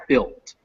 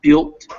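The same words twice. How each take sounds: First: "built" falling, with a crisp final T; corrected pronunciation. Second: "built" louder and rising, as the form to avoid; rejected pronunciation. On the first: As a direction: settle on "built" as the model. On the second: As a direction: hold up "built" as the wrong version. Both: Shown as a demonstration. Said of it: "not built".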